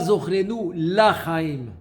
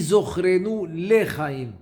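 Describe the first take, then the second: First: The vowel after the L is a full 'a'. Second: The vowel after the L is a short 'e'. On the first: It could sound like 'no life' in Aramaic. The speaker calls it wrong. "Ne dis pas" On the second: It means 'for life'. The speaker calls it right.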